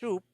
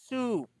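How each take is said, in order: First: The vowel is said short. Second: The vowel is said long. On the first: The speaker calls it wrong. "Instead of saying" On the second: The speaker calls it right. "it's like sou. Like S O O, a very long O"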